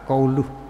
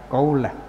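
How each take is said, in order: First: The word ends with an 'u' vowel. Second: The word ends with an 'a' vowel. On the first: The word is read in the nominative case. "yang dibaca rafa qauluh" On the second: The word is read in the accusative case. "dengan dibaca nasab qaulah"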